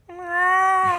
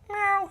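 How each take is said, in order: First: The meow is long and drawn out. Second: The meow is short and quick.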